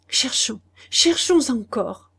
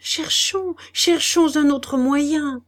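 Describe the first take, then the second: First: Slow, halting, higher stammer. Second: Slow, high, feverish urging. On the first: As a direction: falter over the words. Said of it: "balbutia-t-il". (balbutier lentement, voix hésitante) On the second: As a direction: repeat it in a fever. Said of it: "répéta-t-il fiévreusement". (répéter fiévreusement, lentement et plus haut) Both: Acted.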